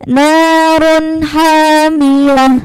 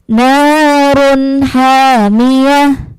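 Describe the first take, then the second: The two takes are said the same way.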